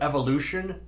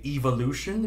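First: It is said with an American pronunciation. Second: It is said with a British pronunciation. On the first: "instead of evolution" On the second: "they say evolution"

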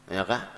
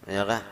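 No difference in how they are said.

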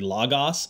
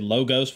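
First: The o vowel sounds more like 'ah'. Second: The o vowel sounds like 'oh'. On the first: This is closer to the Greek. The speaker calls it right. "but it's really logos" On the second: This is how most people say it. The speaker calls it wrong. "A lot of people say logos"

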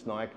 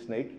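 First: The name rhymes with 'bike'. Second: The name rhymes with 'peak'. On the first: The speaker calls it wrong. "most people mispronounce it. They say Snike" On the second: The speaker calls it right. "but it is Sneak"

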